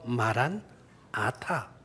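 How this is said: It is split into two parts after maran. The speaker calls it right. "마란아타 이렇게 발음을 하면 이렇게 말을 하면 주님께서는 오셨습니다"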